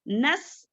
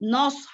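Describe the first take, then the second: First: The s sound is thin and light. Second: The s sound is heavy and thick. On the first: The speaker calls it wrong. "यहाँ पर सीन है, नस नस इस तरीके से पढ़ती।" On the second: The speaker calls it right. "नौस हमको पढ़ना है मोटा"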